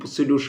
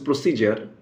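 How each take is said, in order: First: The middle consonant is a 'd' sound. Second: The middle consonant is a 'j' sound.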